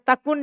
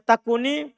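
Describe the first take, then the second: First: The word ends with the consonant n. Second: The word ends with an added i vowel. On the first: This is the basic form of the word. "Asalnya takun" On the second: A vowel is added because a vowelless letter follows. "dibaca takuni karena ketemu dal sukun"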